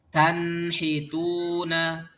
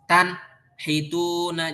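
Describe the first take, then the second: First: The word is said smoothly without any pause. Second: The word is broken by a short pause. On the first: The speaker calls it right. "Jadi kita sambung bacanya. suaranya nggak putus" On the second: The speaker calls it wrong. "jangan gini, diputus. Jadi ada jeda gitu"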